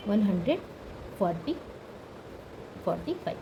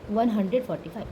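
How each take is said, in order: First: वन hundred, pause, forty, pause, five, dropping lower and softer; spaced out. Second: Said in the usual way. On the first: Shown as a demonstration. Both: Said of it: "ये हमें पता है कैसे बोलते हैं".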